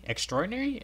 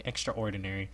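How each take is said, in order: First: Much higher rising question; high incredulous echo; surprised repeat. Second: Said in the usual way. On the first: Real, not acted. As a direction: fling it up in surprise. Repeating the word.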